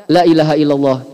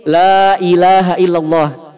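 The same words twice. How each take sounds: First: La ilaha illallah with la cut short and quick. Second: La ilaha illallah slow with the la held long; correct long la. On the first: Teacher showing the wrong short la. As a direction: clip the la. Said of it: "kalau kita baca". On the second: Teacher reciting the correct long la. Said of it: "Contoh lain". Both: Shown as a demonstration.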